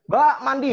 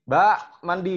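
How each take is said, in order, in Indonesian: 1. Ini diserukan dengan nada yang paling tinggi. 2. Ini diserukan dengan nada yang lebih tinggi. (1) "Dan naik seterusnya" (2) "Nggak dengerin"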